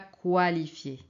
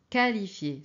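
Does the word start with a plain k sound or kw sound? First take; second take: kw; k. First: It starts with a kw sound. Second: It starts with a plain k sound. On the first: The speaker calls it wrong. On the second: The speaker calls it right.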